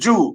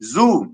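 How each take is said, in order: First: The word begins with a j sound. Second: The word begins with a buzzing z sound.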